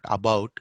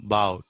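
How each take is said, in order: First: About with a clear "aa" at the start; first vowel of "about" fully sounded; wrong full vowel. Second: About with the first vowel almost silent; swallowed opening in "about"; barely heard schwa. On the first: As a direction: say "about" as "aa-bout". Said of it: "not about". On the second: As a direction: say "about" as "'bout". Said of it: "It should be". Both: Shown as a demonstration.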